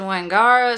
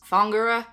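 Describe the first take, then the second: First: The word begins with a W sound. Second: The word begins with an F sound. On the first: The speaker calls it wrong. "and I said Wangara, so I was not even a little bit close" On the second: The speaker calls it right. "should have been pronounced Fongura, because as I learned, the W gets turned into a F sound"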